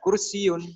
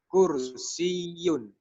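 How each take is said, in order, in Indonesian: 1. Bunyi y-nya pendek dan tidak ditekan. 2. Bunyi y-nya ditahan dan ditekan. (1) "bukan kursiun" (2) "pada huruf ya-nya ada penekanan"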